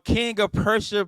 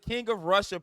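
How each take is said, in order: First: The P at the start of Prussia is pronounced. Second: The P at the start of Prussia is dropped.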